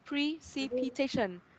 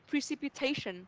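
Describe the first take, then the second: First: It is said slowly, one syllable at a time. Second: It is said fast, syllables joined together.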